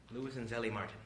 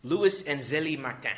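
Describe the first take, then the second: First: "Martin" said the English way, MAR-tin; plain, quieter English-style "Martin"; anglicized pronunciation. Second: "Martin" said the French way, nasal final vowel, R softened; slow, emphatic French-style "Martin"; French pronunciation. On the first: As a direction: repeat "Louis and Zélie Martin" casually with an English "Martin". Same name repeated in English style. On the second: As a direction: say "Louis and Zélie Martin" slowly and loudly, French ending on "Martin". French name, then repeated anglicized. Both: Real, not acted.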